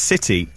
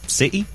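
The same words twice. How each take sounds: First: The word is said in a plain accent. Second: The word is said in a Norwich accent. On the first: "Which is city" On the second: "but in the Norwich accent"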